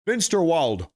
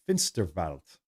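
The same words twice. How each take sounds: First: Said in the usual way. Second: Lower-pitched German "Finsterwald", W said as V; "Finsterwald" with a German V sound for the W; German pronunciation. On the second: Shown as a demonstration. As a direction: say "Finsterwald" as Germans do, ending in "-valt". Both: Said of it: "That's how they say it in German".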